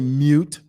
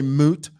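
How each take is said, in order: First: A 'y' sound comes before the vowel. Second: The vowel comes with no 'y' sound before it. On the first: "others say mute" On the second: "Some people say moot"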